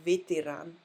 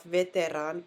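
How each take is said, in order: First: Vitiran with vee-tee and the stress on the final ran; Vitiran, first vowel reduced to ee; right pronunciation. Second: Veteran said with a full English e; veteran, the wrong way on purpose; wrong pronunciation. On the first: Teacher shows students the correct way, careful. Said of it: "but Vitiran". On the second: Teacher shows students the mistake, plain demo. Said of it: "Not veteran". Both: Shown as a demonstration.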